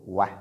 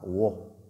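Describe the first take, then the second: First: The vowel is light and open, like 'a'. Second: The vowel is dark and heavy, like 'o'. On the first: The speaker calls it right. "elle est lue de façon légère" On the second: The speaker calls it wrong. "on ne dit pas Wo"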